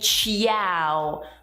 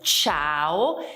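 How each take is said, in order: First: The i is sounded as its own vowel. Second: The i is silent, one smooth syllable. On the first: The speaker calls it wrong. "Errore frequente è dire ciao" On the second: The speaker calls it right. "la I non si pronuncia"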